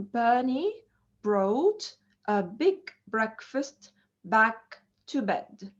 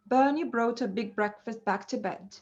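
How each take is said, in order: First: Slow model reading with pauses between word groups; tongue twister, broken up. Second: The whole sentence in one fluent breath; tongue twister, run together. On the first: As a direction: lay out each b word separately for learners. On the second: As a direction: link the b words smoothly without pauses. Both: Shown as a demonstration. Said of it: "like a tongue twister".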